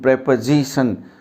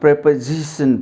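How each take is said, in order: The two takes are said the same way.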